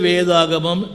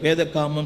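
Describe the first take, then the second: First: The word is said whole with a 'g' sound. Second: The word is split, with a 'k' sound. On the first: The speaker calls it right. "ஒழுங்க வாயில் உச்சரிக்க தெரியாது" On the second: The speaker calls it wrong. "வேத காமம் படிப்பேன்"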